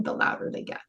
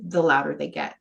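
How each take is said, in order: First: Near whisper. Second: Said in the usual way. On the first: Shown as a demonstration. Coach repeating her point about ignored emotions, whispered. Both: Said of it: "The more we ignore them".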